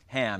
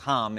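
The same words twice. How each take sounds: First: The name is said with an American accent. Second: The name is said with a Hebrew pronunciation.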